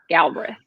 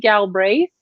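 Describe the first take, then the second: First: The second vowel is dropped. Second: The second vowel is clearly sounded. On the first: This is how the Kentucky family says the name. "but we say Galbraith" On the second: This is how the name is supposed to be said. "it is probably supposed to be Galbraith"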